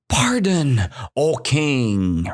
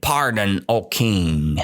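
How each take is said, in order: First: Lightly voiced mouse begging for mercy; a hint of crying plea; mild mock sob to the king; mouse pleading. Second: Said in the usual way. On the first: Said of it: "So the mouse cried". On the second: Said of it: "So who cried".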